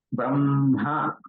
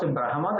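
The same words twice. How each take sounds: First: Brahma said bramha, m held before ha; correct pronunciation. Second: Brahma said as brahama, h before m; wrong pronunciation. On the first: Teacher corrects the common error, pronounced carefully. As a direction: say "Brahma" with hummed m, then breathed ha. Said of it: "Some people pronounce brahma, that is wrong". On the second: Teacher quotes how some people say it, mispronounced. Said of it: "that is wrong". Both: Shown as a demonstration.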